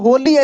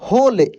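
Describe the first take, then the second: First: The final e is sounded as ee. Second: The word ends on l with no vowel. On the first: The speaker calls it wrong. "या होली ऐसे नहीं पढ़ रहे हैं" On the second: The speaker calls it right. "क्या पढ़ रहे हैं? होल।"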